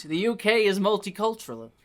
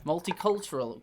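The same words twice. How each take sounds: First: Put-on Elisa's light Albanian accent on multicultural. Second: Multicultural tried again in a light Albanian accent, a bit softer; stumbling accent attempt. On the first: Albanian woman explains Britain, in a light Albanian accent. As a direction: say it as Elisa would, with an Albanian lilt. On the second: Shown as a demonstration. Reader retries the word in Elisa's Albanian accent. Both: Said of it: "I can't say that word in this accent".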